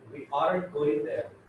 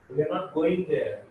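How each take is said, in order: First: The two words merge into one, aren't. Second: Both words are said in full, are not.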